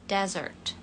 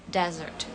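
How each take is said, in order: The two takes are said the same way.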